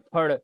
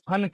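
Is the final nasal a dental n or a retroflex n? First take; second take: retroflex n; dental n. First: The final nasal is a retroflex n. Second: The final nasal is a plain dental n. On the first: The speaker calls it right. "शुद्ध क्या होता है, फड़" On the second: The speaker calls it wrong. "फन क्या है, गलत है"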